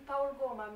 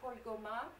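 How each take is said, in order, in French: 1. Le nom se prononce à la roumaine. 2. Le nom se prononce à la française. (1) "nous qui savons que c'est Paul Goma" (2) "Cette fois, j'ai prononcé à la manière française"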